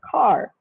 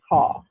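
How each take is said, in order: First: The word ends with an r sound. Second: The word ends without an r sound. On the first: This is the American pronunciation. "They would pronounce the R sound" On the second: This is the British pronunciation. "the British English is ka"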